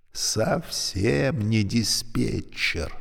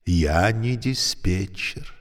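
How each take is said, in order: First: «Совсем» stressed, slow, softer and falling. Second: «не» leaned on, slow and falling; stress on не. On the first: Lift insisting softly, stress on совсем. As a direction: draw out «Совсем» quietly. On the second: Lift patiently correcting her, stress on не. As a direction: press «не» firmly and calmly. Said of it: "Мне придётся вас огорчить". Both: A narrator's reading.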